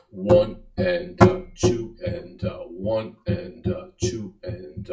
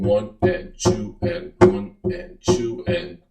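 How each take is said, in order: First: One and, uh, in lilting threes; compound count. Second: One and two and, evenly spaced; simple count set against compound; simple duple count. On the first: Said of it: "you're gonna have". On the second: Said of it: "instead of doing". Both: Shown as a demonstration.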